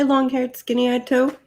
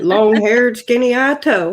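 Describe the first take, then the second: First: It is said in a plain, neutral accent. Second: It is said in a Southern American accent.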